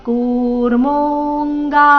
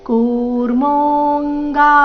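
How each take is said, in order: No difference in how they are said.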